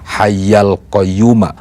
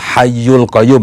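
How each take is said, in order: First: The vowel after hayy sounds like a. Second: The vowel after hayy sounds like u. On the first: The speaker calls it right. "bacaan yang benar itu" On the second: The speaker calls it wrong. "itu keliru sesungguhnya"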